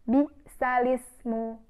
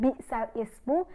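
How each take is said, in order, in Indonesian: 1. Bunyi l langsung menyambung ke 'ismu' tanpa jeda. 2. Ada jeda hamzah antara 'bisal' dan 'ismu'. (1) "tetapi dengan bisalismu" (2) "kita membacanya bukan bisal ismu"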